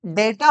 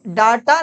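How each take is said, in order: First: डेटा with a long "ay", "DAY-ta", slowly; correct pronunciation. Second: डाटा with a long open "aa", "DAA-ta"; wrong pronunciation. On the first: Teacher gives the correction, डेटा slowly with "ay". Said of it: "ये डेटा होता है". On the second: Teacher rejects the common reading, डाटा with long "aa". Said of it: "डाटा नहीं होता है". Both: Shown as a demonstration.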